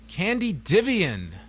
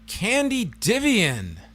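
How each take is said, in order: First: The surname ends with a 'vian' sound. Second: The surname ends with a 'vian' sound.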